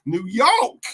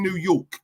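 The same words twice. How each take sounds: First: New York in a hammed-up American accent, higher; mock American accent. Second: Said in the usual way. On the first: Shown as a demonstration. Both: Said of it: "I've said it so wrong".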